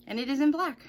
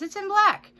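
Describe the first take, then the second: First: Said in the usual way. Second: High, loud mock amazement; sarcastic. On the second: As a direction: sneer it out in fake wonder. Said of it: "Imagine that, you guys".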